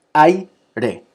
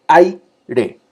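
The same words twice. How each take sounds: First: Said in the usual way. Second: Aire said higher and louder, ai as one beat; emphatic teaching demo of aire; one-syllable ai demo. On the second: Shown as a demonstration. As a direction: glide aire's ai into a single syllable. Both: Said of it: "ai, una sola sílaba".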